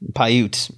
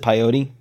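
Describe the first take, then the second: First: The name is said without an 'oh' vowel. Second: The name is said with an 'oh' vowel. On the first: The speaker calls it right. "yes, there you go" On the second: The speaker calls it wrong. "Is that how you pronounce it? There's no O"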